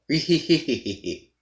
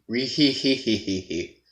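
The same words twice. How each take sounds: First: The laugh is delivered at a faster pace. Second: The laugh is delivered at a slower pace.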